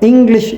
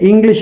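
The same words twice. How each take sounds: First: The stress falls strongly on the first syllable. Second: The syllables are said evenly, without strong stress. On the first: "அவர்கள் English என்று சொல்வார்கள்" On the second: "நாங்கள் வெறுமனே English என்று சொல்வதை"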